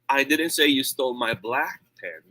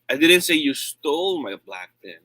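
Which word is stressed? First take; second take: black; stole. First: The word "black" carries the main stress. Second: The word "stole" carries the main stress. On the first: A pen of another color was taken. "It means maybe yung red ng ninakaw" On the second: It was borrowed, not stolen. "I said you borrowed it"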